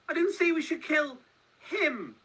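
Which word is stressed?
him. The stress is on "him".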